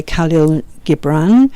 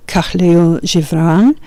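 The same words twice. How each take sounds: First: "GIB-ran" in Khalil Gibran, the Yorkshire way; Yorkshire pronunciation. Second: "zhi-BRAHN" in Khalil Gibran, French-style; soft-G pronunciation. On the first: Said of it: "that's my Yorkshire accent". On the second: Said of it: "I believe it might be". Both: Shown as a demonstration.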